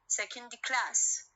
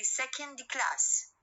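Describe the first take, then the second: First: Second class, slow, with class stressed. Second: Said in the usual way. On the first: Shown as a demonstration. Teacher showing students final stress: class stressed. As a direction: lean on class slowly, second stays light. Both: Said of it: "إذا على class الستريس".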